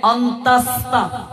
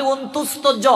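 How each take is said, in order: First: অন্তাস্তা with an open vowel instead of u; teacher's corrected অন্তাস্তা; corrected pronunciation. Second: অন্তুস্ত জ with a u in the middle; everyday wrong অন্তুস্ত; common mispronunciation. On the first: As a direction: say অন্তাস্তা carefully, syllable by syllable. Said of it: "এটা হবে". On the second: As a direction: say অন্তুস্ত জ quickly as people misname it. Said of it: "আমরা বলি". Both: Shown as a demonstration.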